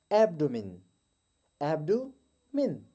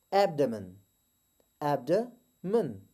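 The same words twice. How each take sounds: First: एब्डोमेन with an oo in the middle, stretched slow; wrong take, एब्डोमेन as abdoomin; wrong abdomen. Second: एब्डोमेन with a neutral uh, said slowly; right abdomen. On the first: Teacher demonstrates the wrong एब्डोमेन. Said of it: "wrong pronunciation". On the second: Teacher models the correct एब्डोमेन. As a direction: correct एब्डोमेन, schwa in the middle. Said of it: "जबकि right pronunciation". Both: Shown as a demonstration.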